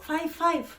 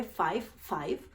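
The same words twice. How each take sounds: First: High, pointing five five; mock panicky clerk; nervous clerk. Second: Lower, flat five five; mock the clerk dryly; dry retelling of five five; deadpan mockery. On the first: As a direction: repeat in a flustered high voice. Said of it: "solo decía esto y entró en pánico". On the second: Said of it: "Solo todo lo que dijo fue".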